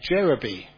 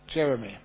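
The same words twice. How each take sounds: First: The name is said with Thai pronunciation. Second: The name is said with English pronunciation. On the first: "Ajahn Chah could not say that, so it became Jeremy" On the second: "So his name was Jeremy"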